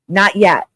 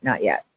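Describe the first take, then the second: First: "Not yet" said louder, stressed on Not. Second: "Not yet" said much lower and softer, falling; quiet stress. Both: Real, not acted. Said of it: "the important thing for you to hear".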